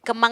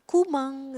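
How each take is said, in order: First: It is said with plain Indonesian pronunciation. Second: It is said with a Japanese accent.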